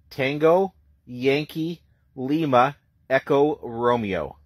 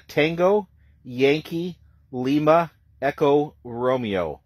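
The two takes are said the same way.

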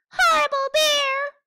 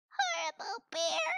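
First: High, loud furious "Horrible bear!"; angry shout. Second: Very high squeaky voice on "Horrible bear"; squeaky bat. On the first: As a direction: yell it in a tantrum. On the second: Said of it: "Bat squeaked". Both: Acted.

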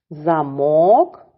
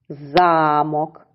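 First: "Замок" stressed on -мок, rising at the end; stress on second syllable. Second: "замок" with a long stressed за-; stress on first syllable. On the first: Teacher contrasting two words spelled alike, stress on second syllable. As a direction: hit MOK in "Замок": za-MOK. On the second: Teacher contrasting two words spelled alike, stress on first syllable. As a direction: stretch ZA in "замок": ZAA-mok. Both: Shown as a demonstration. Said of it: "але наголос змінив".

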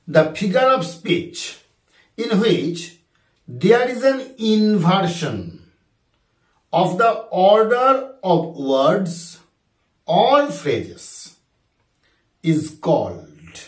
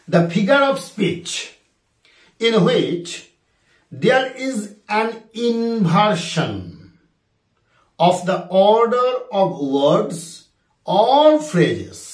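First: Drawn-out second reading; slow dictation repeated. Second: Drawn-out, word by word; slow dictation. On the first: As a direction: read the question again slowly for the class. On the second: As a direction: dictate the question slowly. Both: Shown as a demonstration. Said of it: "কোশ্চেনটা আরেকবার বলি".

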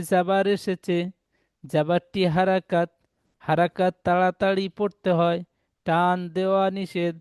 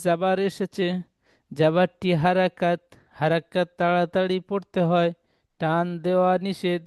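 Both takes have the same delivery.

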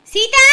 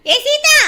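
First: Calling out. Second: Higher, loud insistent call; calling out louder. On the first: Neighbour calling Seetha from outside, loud call. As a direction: call her out of the house. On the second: Neighbour calling Seetha a second time, louder call. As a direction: shout her name, more urgent. Calls girl again louder. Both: Acted.

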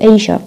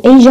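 First: "أي شا" with a voiceless sh sound; "sh" variant. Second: "أي جا" with a voiced zh sound; "zh" variant. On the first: Teacher giving the second British option, sh in "أي شا". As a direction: make the middle consonant sh in "أي شا". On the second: Teacher giving the first British option, voiced zh in "أي جا". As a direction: voice the middle consonant in "أي جا". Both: Shown as a demonstration. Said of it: "ممكن يلفظوا الجا والشا".

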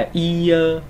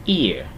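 First: "ear" slow and high, with a long full i before ơ; wrong drawn-out reading. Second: "Ear" short and low, i gliding straight into ơ; correct joined glide. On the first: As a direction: stretch "ear" into a long ee and a separate uh. (đọc "ear" sai, kéo dài chữ i rồi mới ơ) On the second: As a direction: say "Ear" as one quick joined syllable. (đọc "Ear" gọn, dính liền i và ơ) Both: Shown as a demonstration. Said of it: "Chứ không phải là ear".

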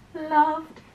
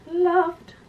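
Both takes have the same delivery.

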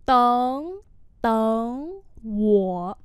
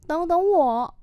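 First: Separated syllables, rising tones held; slow demonstration for learners; slow model pronunciation. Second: Said in the usual way. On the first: Shown as a demonstration. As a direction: pause after each syllable. Teacher repeats phrase slowly.

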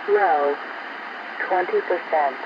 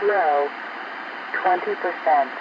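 The two takes are said the same way.

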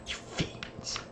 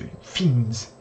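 First: Barely voiced, hissed under the breath; a hushed, unvoiced You fiends; whispered mock curse. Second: Said in the usual way. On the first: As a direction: whisper it like a defeated villain.

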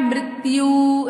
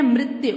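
First: "मृत्यु" drawn out as mrit-ti-yoo; wrong long ending. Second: "मृत्यु" compact as mrit-yu; correct short ending. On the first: Teacher shows how not to say it, "मृत्यु" stretched to mrit-tiyoo. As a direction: say "मृत्यु" slowly with a long final oo. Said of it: "ऐसे तो नहीं बोलते". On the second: Teacher shows how we say it, "मृत्यु" short as mrit-yu. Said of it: "क्या बोलते हैं?". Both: Shown as a demonstration.

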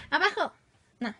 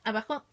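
First: Higher, louder call of abajo; real sharp command shouting abajo. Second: Said in the usual way. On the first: Real, not acted. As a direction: order the cat down, firmly. Calling the cat down.

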